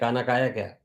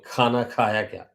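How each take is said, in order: First: The middle word starts with an unaspirated k. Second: The middle word starts with an aspirated kh. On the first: The speaker calls it wrong. "Tamilians who have not learned all these basics, they will always say" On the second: The speaker calls it right. "kha varna, the kha, not ka"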